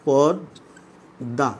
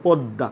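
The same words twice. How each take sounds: First: পদ্মা said very slowly, the doubled d held long; drawn-out demo. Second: Said in the usual way. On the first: Shown as a demonstration. Teacher slowly shows his students how পদ্মা is said. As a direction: stretch পদ্মা, leaning on the doubled dd. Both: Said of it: "একটু লক্ষ্য করো".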